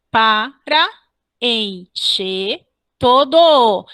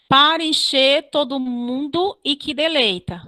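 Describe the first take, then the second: First: "Para encher todo" in slow, separated beats; deliberate metrical demo of "Para encher todo"; syllable-by-syllable scansion. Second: Said in the usual way. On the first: Shown as a demonstration. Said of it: "mais um exemplo de elisão". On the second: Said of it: "Nos outros versos, a mesma coisa".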